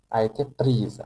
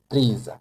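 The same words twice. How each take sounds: First: "prise" ending on a z sound in the full phrase; French a été prise. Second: "Prise" said alone, the s sounding as z; teacher models "Prise" with z; pron prise with z. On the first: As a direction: put "Prise" back into "A été prise", s as z. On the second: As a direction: isolate "Prise" and buzz the final z. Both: Shown as a demonstration. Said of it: "now the pronunciation changes too".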